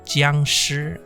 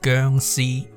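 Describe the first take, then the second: First: The name is said with Mandarin sounds and tones. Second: The name is said with Cantonese sounds and tones. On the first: "the correct way to pronounce it, in Mandarin" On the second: "if you want to pronounce it in Cantonese"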